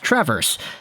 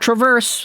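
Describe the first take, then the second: First: It is not said like the verb traverse. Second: It is said like the verb traverse. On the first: The speaker calls it right. "It's traverse. There you go" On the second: The speaker calls it wrong. "It's not traverse, like the verb to walk backwards"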